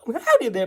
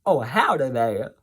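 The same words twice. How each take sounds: First: Southern "howdy there" pitched up high and hammed-up; a broad cartoon Southern greeting, higher; Southern accent. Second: Southern accent. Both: Shown as a demonstration. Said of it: "I could be Southern".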